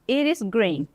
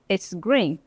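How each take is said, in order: First: It is said as two separate full words. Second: It is shortened into one contracted syllable. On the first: "it is green, é verde" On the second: "Fica it's"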